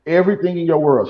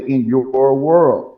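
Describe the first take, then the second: First: Said in the usual way. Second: Slow echo. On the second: Retold or imitated. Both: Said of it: "how she said it?".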